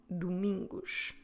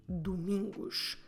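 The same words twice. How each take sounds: Both takes have the same delivery.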